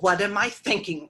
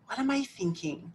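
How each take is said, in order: First: It is said in a harsh, judging tone. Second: It is said in a kind, gentle tone. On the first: The speaker is putting themselves down. The speaker calls it wrong. "Notice the tone" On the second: The speaker is curious without self-judgment. The speaker calls it right. "in a loving way"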